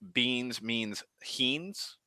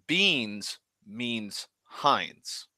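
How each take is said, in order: First: The last word has an 'ee' vowel. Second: The last word has an 'eye' vowel.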